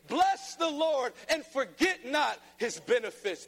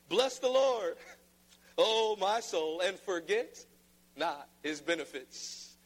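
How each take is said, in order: First: It is declared with strong, excited emotion. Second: It is read in a flat, boring tone.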